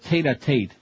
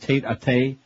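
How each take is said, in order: First: The T at the end of the second Tate is pronounced. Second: The T at the end of the second Tate is dropped. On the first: The speaker calls it right. "it's to pronounce the T in the second Tate as well" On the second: The speaker calls it wrong. "He says Tate-a-Tate. He should know better"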